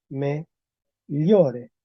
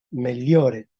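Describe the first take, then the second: First: "meliore" as me-llo-re, with palatal gli sound; palatalized L. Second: "meliore" as mel-yo-re, l then y-glide; L plus yod. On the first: Teacher applies rule twelve for class, palatalized L. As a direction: say "meliore" with l and glide fused. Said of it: "Entonces ahora con P doce". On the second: Teacher applies rule five for class, L plus yod. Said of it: "entonces aplico P cinco". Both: Shown as a demonstration.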